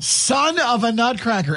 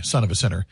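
First: High, slow playful title; mock song title. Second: Said in the usual way. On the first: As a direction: announce the parody title grandly. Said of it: "holiday remix called Son of a Nutcracker". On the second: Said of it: "Son of a Sinner from [name]".

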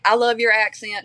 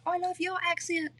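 First: Said in the usual way. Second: High, soft British voice imitating a friend; British accent. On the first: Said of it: "amazed by each other's accents". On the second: Co-star admiring her new friend's accent, high soft British imitation. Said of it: "really good British accent".

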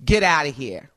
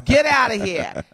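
First: Said in the usual way. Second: Punchy East Coast dismissal; East Coast accent. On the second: Acted. Host shows how they say it out east, East Coast accent. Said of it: "Like they say on the East Coast".

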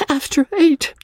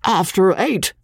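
First: High, miserable repeat; young wife despairing over the late hour; wretched echo. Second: Wheezed. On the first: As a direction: echo it near tears. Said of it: "she echoed wretchedly". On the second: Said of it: "wheezed Cotton Whiskers". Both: A narrator's reading.

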